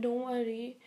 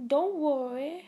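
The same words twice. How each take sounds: First: Said in the usual way. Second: Higher, louder playful idol voice. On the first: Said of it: "That was an impersonation of". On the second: Retold or imitated. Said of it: "That was an impersonation of [name]".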